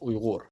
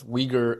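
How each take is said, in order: First: It is said the native Uyghur way. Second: It is said the common Western way. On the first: This is how the people themselves say it. The speaker calls it right. "the correct pronunciation is Uyghur" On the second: This is how outsiders usually say it. The speaker calls it wrong. "you might have heard Uyghur being pronounced as Uyghur in the West"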